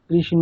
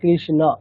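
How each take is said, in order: First: The inherent vowel is pronounced like 'o'. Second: The inherent vowel is pronounced as a clear 'a'. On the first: This is the Bengali-style pronunciation. The speaker calls it wrong. "এরকম বলবো না" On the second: This is the Sanskrit pronunciation. The speaker calls it right. "সংস্কৃতে বললে কৃষ্ণ"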